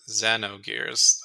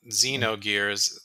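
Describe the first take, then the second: First: The first syllable sounds like 'zeh'. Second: The first syllable sounds like 'zee'. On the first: The speaker calls it right. "it's Ze" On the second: The speaker calls it wrong. "not Z"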